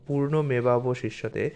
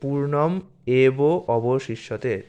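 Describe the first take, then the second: First: The words run together without breaks. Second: The words are separated with short breaks.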